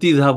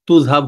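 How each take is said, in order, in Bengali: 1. আঞ্চলিক রূপ, প্রথম স্বরধ্বনি 'i' এর মতো শোনায়। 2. আঞ্চলিক রূপ, প্রথম স্বরধ্বনি 'u' এর মতো শোনায়। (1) "আঞ্চলিকতার ভিতরে গিয়ে কখনো তিযহাব হয়ে যায়" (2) "তুযহাব হয়ে যায়"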